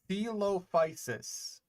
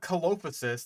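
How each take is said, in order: First: The first C is a soft S sound. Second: The first C is a hard K sound. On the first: The speaker calls it right. "proper, like, soft C pronunciation" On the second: The speaker calls it wrong. "it's not Colophysis, like I've heard some people try to pronounce it"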